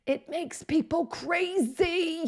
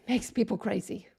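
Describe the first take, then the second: First: High, slow, drawn-out exasperation; exasperated. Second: Said in the usual way. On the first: Real, not acted. Web designer venting about a changed UI, exasperated. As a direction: stretch it out high, driven up the wall.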